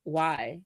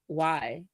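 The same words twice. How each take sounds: First: It sounds like a curious, genuine question. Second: It sounds like a curious, genuine question.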